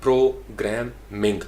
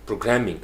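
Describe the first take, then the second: First: programming slowly as pro... gram... ming; syllable-by-syllable programming with pauses; three separate syllables. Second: programming as one word, pro-GRAM-ming; joined-up programming with strong middle; stress on GRAM. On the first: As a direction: break programming into three beats. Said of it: "तीन syllable हैं". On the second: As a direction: lean on GRAM, falling after, in programming. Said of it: "ग्राम के ऊपर stress". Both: Shown as a demonstration.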